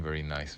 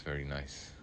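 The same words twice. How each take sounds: First: Said in the usual way. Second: Soft echo. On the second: Real, not acted. Much softer echo of remark.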